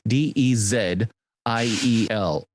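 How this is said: The letter Z is said the British way.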